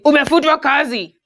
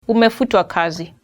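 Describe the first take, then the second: First: It is said in a harsh, blunt tone. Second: It is said in a gentle, polite tone.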